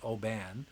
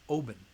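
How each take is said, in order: First: The name has a common non-Scottish pronunciation. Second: The name has the local Scottish pronunciation. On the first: The speaker calls it wrong. "don't say Oban because it's not Oban" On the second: The speaker calls it right. "If you're Scottish, it's Oban"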